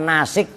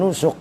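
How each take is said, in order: First: The word has an i vowel after s. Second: The word has u vowels throughout. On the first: "bukan nasik juga" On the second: "bukan nusuk"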